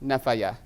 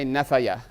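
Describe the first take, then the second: First: The word ends with a 'ya' syllable. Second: The word ends with a 'ya' syllable.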